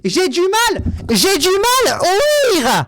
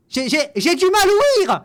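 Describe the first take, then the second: First: Higher, louder and very slow, dragging out each word; slow hammed-up yell of not hearing; drawn-out mock shout. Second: Higher, louder stammered complaint; hammed-up loud stammer, pretending to be hard of hearing; loud mock stammer at a comment he dislikes. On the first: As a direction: stretch it out loud as if shouting to someone deaf. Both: Pretends not to hear comment.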